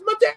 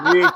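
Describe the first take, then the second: First: It is said in a high voice. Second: It is said in a lower voice.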